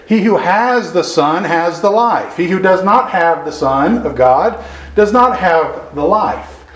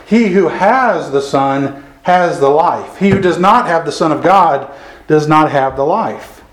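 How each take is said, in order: First: Slow reread, leaning on "has" each time; stress on has. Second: Said in the usual way. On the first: Shown as a demonstration. Preacher rereading verse twelve to the congregation, stressing "has". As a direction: press down on "has", unhurried. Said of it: "I've got to emphasize the word "has" there". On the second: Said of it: "I've got to emphasize the word "has".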